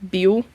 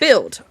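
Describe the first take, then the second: First: The name ends softly, like 'el'. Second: The name ends with a full 'ld' sound. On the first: "it's also kind of pronounced more uh, like Buell" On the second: "you see it pronounced as build"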